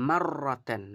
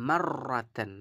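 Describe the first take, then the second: No difference in how they are said.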